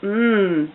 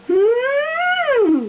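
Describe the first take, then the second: First: The hum is at a lower pitch. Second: The hum is high in pitch. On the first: It is not too sweet. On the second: It is really sweet.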